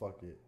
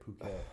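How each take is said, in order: First: It sounds like the phrase 'fuck it'. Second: It does not sound like 'fuck it'. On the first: The speaker calls it wrong. "It's not fuck it" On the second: The speaker calls it right.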